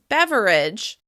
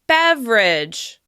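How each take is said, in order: First: The word is said with three syllables. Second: The word is said with two syllables. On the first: "some people may say it with three syllables" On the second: "it's very common to say it with just two"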